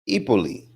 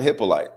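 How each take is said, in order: First: The surname is pronounced in a Haitian way. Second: The surname is pronounced in an English way. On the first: The speaker calls it right. "It's a Haitian name" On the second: The speaker calls it wrong. "That's not the right way to say my last name"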